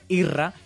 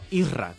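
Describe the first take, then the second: First: The name is said without an s sound. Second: The name is said with an s sound. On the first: "era más fácil pronunciar Irra" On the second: "Irra con la S"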